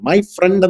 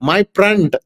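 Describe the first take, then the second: First: The word friend starts with an F sound. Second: The word friend starts with a P sound. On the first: "my ഫ്രണ്ട് എന്ന് അദ്ദേഹം പറഞ്ഞപ്പോൾ" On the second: "പി R E N D"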